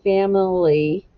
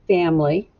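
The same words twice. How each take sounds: First: The middle vowel is clearly pronounced. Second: The middle vowel is dropped entirely. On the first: The speaker calls it wrong. "We don't usually say family" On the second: The speaker calls it right. "just say family"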